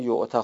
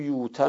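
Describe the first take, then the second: First: The word has a glottal stop in the middle. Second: The word has no glottal stop in the middle. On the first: "بهتره که همون یعته خونده بشه" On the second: "اینم یوته میتونیم بخونیم"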